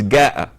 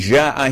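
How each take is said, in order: First: The word begins with a 'g' sound. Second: The word begins with a 'j' sound. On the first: This is the colloquial dialect pronunciation. The speaker calls it wrong. "he says Ga'a" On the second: This is the proper Quranic pronunciation. The speaker calls it right. "Instead of saying Ja'a"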